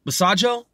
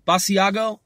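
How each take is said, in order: First: Basajo as buh-SAH-joe, three syllables; soft-g pronunciation. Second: Basiago as bah-see-AH-go, four syllables; hard-g pronunciation. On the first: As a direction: say Basajo with a j sound, questioning. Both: Shown as a demonstration. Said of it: "heard his name pronounced differently".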